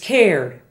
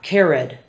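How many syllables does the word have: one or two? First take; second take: one; two. First: The ending is part of one syllable. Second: The ending is a separate second syllable. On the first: The speaker calls it right. "the past tense is cared" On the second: The speaker calls it wrong. "Spanish speakers often make this a separate syllable"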